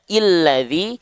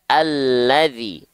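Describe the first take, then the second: First: The word begins with an i vowel. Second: The word begins with an a vowel. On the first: The speaker calls it wrong. "kita nggak mungkin baca illadzi" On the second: The speaker calls it right. "tapi kita baca alladzi. A dengan vokal A"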